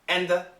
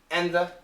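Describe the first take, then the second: First: The d is dropped and the th remains. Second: The d is dropped and the th remains.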